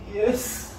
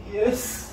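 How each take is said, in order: First: It sounds sad. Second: It sounds sad.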